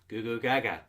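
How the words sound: It is said in a deep, manly voice. "can say it manly"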